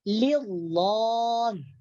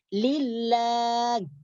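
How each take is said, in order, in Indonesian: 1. Huruf l pada Allah dibaca berat dan tebal. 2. Huruf l pada Allah dibaca ringan dan tipis. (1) "Jangan dibaca tebal seperti mengatakan lillah" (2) "dibaca tipis, dibaca tarqiq"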